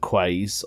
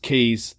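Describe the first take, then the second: First: The word begins with a kw sound. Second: The word begins with a plain k sound. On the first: The speaker calls it wrong. "it's not pronounced the Quays" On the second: The speaker calls it right. "No, it's Keys"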